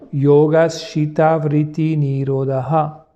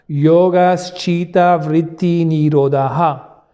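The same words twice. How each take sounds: First: It is said one step softer and lower. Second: It is said loudly, at full voice. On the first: "on va baisser d'un ton" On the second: "le dire à haute voix"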